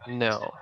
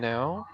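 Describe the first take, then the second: First: The no sounds short and curt. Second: The no sounds soft and friendly. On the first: The speaker does not want to talk. The speaker calls it wrong. "that's like different" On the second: The answer is acceptable and polite. The speaker calls it right. "maybe that's okay"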